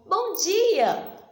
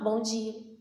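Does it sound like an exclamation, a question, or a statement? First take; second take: exclamation; statement. First: It is said as a lively exclamation. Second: It is said as a plain statement, falling.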